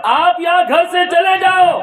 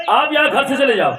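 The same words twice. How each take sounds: First: "آپ یہاں گھر سے چلے جاؤ" shouted much higher and louder; shouted order. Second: Said in the usual way. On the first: Acted. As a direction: repeat it as a furious shout.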